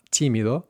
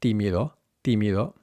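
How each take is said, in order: First: Tímido with an aspirated t; breathy English t on tímido. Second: Tímido with dental, unaspirated t; tongue on teeth, no puff on tímido; muted t starting tímido; Spanish t. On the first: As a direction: puff of air starting tímido. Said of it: "So not". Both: Shown as a demonstration.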